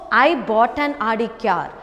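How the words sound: The stress is on "I".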